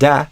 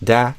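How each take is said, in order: First: The vowel is open, like 'ah'. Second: The vowel is open, like 'ah'.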